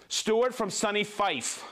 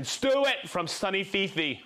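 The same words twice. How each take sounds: First: "Fife" said as one syllable, rhyming with life. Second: "Fifi" said in two syllables, FEE-fee. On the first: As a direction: slowly try "Fife" with a long i and silent e. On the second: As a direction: end on "Fifi" with an ee sound in both syllables. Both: Shown as a demonstration. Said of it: "Fife or Fifi?".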